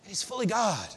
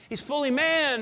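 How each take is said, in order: First: Fully God, dropped softer with awe; hushed reverence. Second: Said in the usual way. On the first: Shown as a demonstration.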